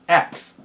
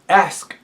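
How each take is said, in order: First: The word ends with a k then s sound. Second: The word ends with an s then k sound. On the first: The speaker calls it wrong. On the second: The speaker calls it right.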